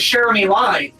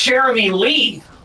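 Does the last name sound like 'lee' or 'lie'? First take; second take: lie; lee. First: The last name sounds like 'lie'. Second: The last name sounds like 'lee'. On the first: The speaker calls it wrong. "I thought it was" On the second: The speaker calls it right. "I only learned today that it's"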